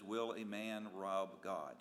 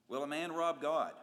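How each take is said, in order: First: Title read slowly and evenly, Will a Man Rob God. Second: Louder, stress on rob in Will a man rob God; emphatic question. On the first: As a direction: announce the title, slow and measured. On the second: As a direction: hit rob hard, louder, as a challenge. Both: Shown as a demonstration. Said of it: "The title this morning is".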